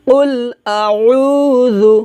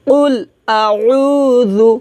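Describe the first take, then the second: The two takes are said the same way.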